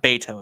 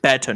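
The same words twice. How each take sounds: First: Beto said BAY-toh; mistaken pronunciation. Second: Beto said BET-oh; corrected pronunciation. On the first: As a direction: open Beto with a long AY. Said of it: "not Beto". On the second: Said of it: "Beto, not Beto". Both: Shown as a demonstration.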